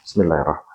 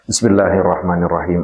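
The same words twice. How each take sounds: First: It is said very quietly, barely audible. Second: It is said aloud, clearly audible.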